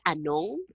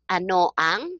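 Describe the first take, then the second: First: It is merged into one word. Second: It is said as two separate words. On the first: "I would say anong" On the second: "whether it's ano ang"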